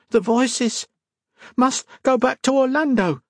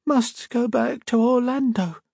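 First: Put-on high, eerie chanting child voice; feral sick girl. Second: Put-on high, slow, dazed child voice; feral sick girl. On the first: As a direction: intone it as if hearing voices. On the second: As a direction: drone it out as if entranced. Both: Feral girl repeating voices' command.

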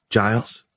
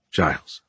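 First: Rising Giles, questioning. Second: Low, falling Giles; Giles as answer. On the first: Woman queries the captive's name, Giles rising. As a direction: lift the end of Giles into a question. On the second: Captive man gives his name, Giles low and falling. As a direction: say Giles lower, as a plain answer. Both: Acted.

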